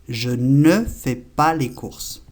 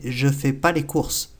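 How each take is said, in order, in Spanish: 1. La palabra 'ne' se pronuncia claramente. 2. La palabra 'ne' se omite por completo. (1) "La forma correcta es siempre la doble negación" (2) "no lo pronuncian o lo pronuncian a mitad como que se lo tragan"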